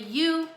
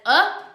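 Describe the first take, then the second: First: The vowel sounds like the letter's own name. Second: The vowel is short, unlike the letter's name. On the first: "which is long" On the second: "which is short"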